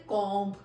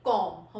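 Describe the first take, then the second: First: कॉम्ब said with the b voiced at the end; teacher demonstrating the wrong कॉम्ब; wrong way, b sounded. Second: कॉम्ब said as kom, the b unsounded; teacher showing कॉम्ब with no b; silent b. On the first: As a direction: show the mistake, kombh with a b. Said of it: "हम लोग ये नहीं कहते". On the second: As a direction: say कॉम्ब ending cleanly on m. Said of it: "तो हम लोग कैसे कहते हैं?". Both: Shown as a demonstration.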